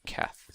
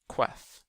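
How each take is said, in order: First: The name begins with a plain k sound. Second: The name begins with a kw sound. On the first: The speaker calls it right. "a Q on its own is pronounced Keth, just like a K" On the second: The speaker calls it wrong. "they always think Queth, Q U T H"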